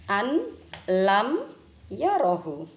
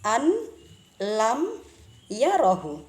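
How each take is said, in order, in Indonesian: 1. Bunyi n diucapkan jelas sebelum l. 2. Bunyi n diucapkan jelas sebelum l.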